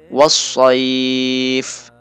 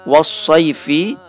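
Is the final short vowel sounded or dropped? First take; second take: dropped; sounded. First: The word ends on a consonant. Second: The word ends with a short vowel.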